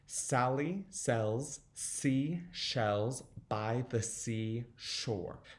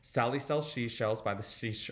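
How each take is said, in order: First: It is said slowly. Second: It is said fast.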